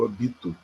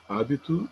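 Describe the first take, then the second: First: "habito" as ha-BI-to; stress on BI. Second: Said in the usual way. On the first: Shown as a demonstration. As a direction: hit BI in "habito", the verb form. ("habito" com a tônica no BI) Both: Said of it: "Existe hábito e eu habito".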